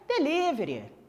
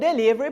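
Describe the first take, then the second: First: It is said with a Brazilian Portuguese pronunciation. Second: It is said with a showy English pronunciation. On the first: The speaker talks normally. "Você vai falar o quê?" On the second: The speaker is showing off. "você não vai ficar todo mitidão pedindo um delivery"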